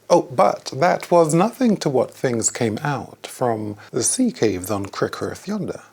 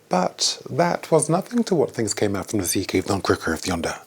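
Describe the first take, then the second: First: It is said slowly all the way through. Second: It starts slow and speeds up at the end.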